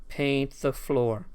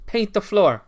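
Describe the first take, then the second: First: Slow, drawn-out paint the floor; slow drawn-out command. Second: High, loud paint barking the order; barked command. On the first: Streamer echoing the Karate Kid line, drawn out slow. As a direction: stretch each word out slowly. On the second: Streamer playing the sensei giving the order, loud and high. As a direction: snap it out like a stern sensei. Repeating a Karate Kid line. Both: Pretend.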